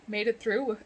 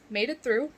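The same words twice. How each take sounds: The two takes are said the same way.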